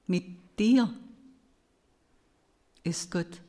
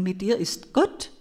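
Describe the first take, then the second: First: The stress falls on the word dir. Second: The stress falls on the word Gott. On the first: God is with you personally. "Nun hörte ich es anders" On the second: God is the one who is with you. "mit Betonung auf dem letzten Wort gelesen"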